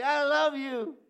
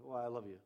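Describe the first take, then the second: First: High, loud excited "I love you"; gushing "I love you" with emphasis on love. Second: Said in the usual way. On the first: Shown as a demonstration. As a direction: burst out with it, thrilled. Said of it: "you get excited when you tell somebody". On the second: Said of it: "you get excited when you tell".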